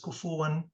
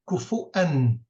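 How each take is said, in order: First: A w sound links the middle vowels. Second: A glottal stop separates the middle vowels. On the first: This is one particular traditional reading. "he drops the Hamza" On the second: This is how most other traditional readings have it. "most other readers keep it"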